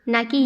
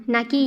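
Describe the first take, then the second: The two takes are said the same way.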